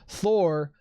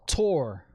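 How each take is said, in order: First: The name begins with a soft TH sound. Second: The name begins with a hard T sound. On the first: The speaker calls it right. "You don't pronounce Thor" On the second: The speaker calls it wrong. "You don't pronounce Thor, Tor"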